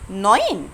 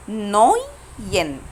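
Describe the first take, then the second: First: Said in the usual way. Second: نوين very slow, split "noyyy... yen"; slow breakdown. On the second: Shown as a demonstration. Teacher shows how she said the diphthong, slow breakdown. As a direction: pull نوين apart into two long syllables. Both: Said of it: "أنا نطقت أوي إزاي؟".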